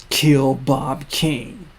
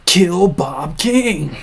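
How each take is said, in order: First: Kill Bob King, each word slow and heavy; slow grave order. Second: Kill Bob King, slow and louder, dropping on King; dramatic slow order. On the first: Future self ordering the younger to kill, slow and grave. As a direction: lay the order down slowly. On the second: Recap replaying the chilling order, slow and dramatic. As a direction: boom the order out slowly. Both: Acted.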